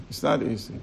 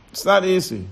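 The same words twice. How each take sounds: First: "It's not easy." dropped low and soft; quiet repeat. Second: Said in the usual way. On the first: Shown as a demonstration. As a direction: let "It's not easy." sink softly.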